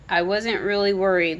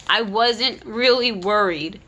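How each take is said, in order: First: Said in the usual way. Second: "really" drawn out slowly and leaned on; slow, pointed "I wasn't REALLY worried"; stress on really. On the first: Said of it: "Louise called". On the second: Retold or imitated. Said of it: "then she admits at the end".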